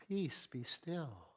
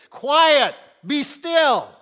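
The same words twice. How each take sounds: First: Hushed, slow, gentle "Peace, be still."; the soft churchy way it's usually read. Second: Forceful rebuke, loud and high; forceful command. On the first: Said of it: "I don't think Jesus said it like that at all". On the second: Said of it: "there was a forcefulness to his voice". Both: Shown as a demonstration.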